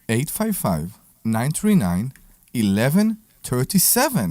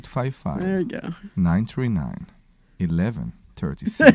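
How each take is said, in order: First: It is said in a plain, normal voice. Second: It is said in a put-on sexy voice.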